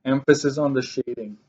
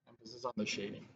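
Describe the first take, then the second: First: Said in the usual way. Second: Much softer, quicker repeat under the breath; quiet echo. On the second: Shown as a demonstration. Math teacher softly echoes her own reminder to students, quiet. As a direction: murmur the reminder again to yourself.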